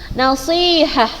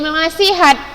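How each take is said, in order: First: The word ends with a soft h sound. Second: The word ends with a clear t sound. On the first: The speaker calls it right. "Tamar butoh ketika dimatikan dia berubah jadi huruf H" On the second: The speaker calls it wrong. "jangan lagi ada nasihat"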